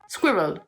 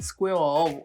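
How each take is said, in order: First: It is said with a native English accent. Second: It is said with a French accent. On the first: The speaker calls it right. "Seems easy when you break it down" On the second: The speaker calls it wrong. "This is what I hear a lot"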